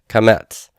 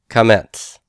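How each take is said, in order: The two takes are said the same way.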